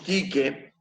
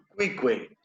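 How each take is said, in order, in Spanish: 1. La u después de cada sonido k es muda. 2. La u después de cada sonido k se pronuncia. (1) "No es como aquí que vemos" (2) "Los romanos te dirían hola, Cuicue"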